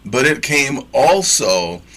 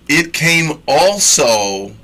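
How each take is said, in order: First: Slowed, leaning on "it" in "but it came also"; stress on it. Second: Slow, leaning hard on "came"; stress on came. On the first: Preacher insists the word came again, stressing "it". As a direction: press "it came also", the emphasis on "it". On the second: Teaching the congregation, stretching out "came" slowly. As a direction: draw out "It came also" with weight on "came". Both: Shown as a demonstration. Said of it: "not just then".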